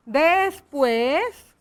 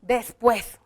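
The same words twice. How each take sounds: First: "Después" drawn out, rising at the end; slow dictation. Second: Said in the usual way. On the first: Shown as a demonstration. Teacher writes the agreed word, slow dictation. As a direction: stretch "Después" slowly for writing.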